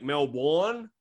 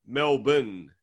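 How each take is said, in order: First: "Melbourne" with a full "born" ending, rising; outsiders' pronunciation. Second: "Melbourne" as MEL-bun, second vowel swallowed; local pronunciation. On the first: Retold or imitated. Australian mimicking everyone else, outsiders' pronunciation. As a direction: mimic foreigners saying "Melbourne" as mel-BORN. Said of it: "everyone's like". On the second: Shown as a demonstration. Australian showing how locals name the city, local pronunciation. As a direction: say "Melbourne" slowly, ending in a short "bun". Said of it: "But everyone's like".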